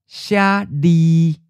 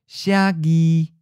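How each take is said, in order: First: The second syllable starts with an l sound. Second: The second syllable starts with a g sound. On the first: "le is just easier to say than j" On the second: "it's merging with the G sound"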